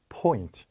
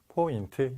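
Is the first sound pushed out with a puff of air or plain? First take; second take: puff of air; plain. First: The first sound has a strong puff of air. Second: The first sound is plain, Korean-style. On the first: The speaker calls it right. "공기로 내는 거기 때문에 ... 이렇게 내는 거예요" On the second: The speaker calls it wrong. "이거는 우리나라 말이에요"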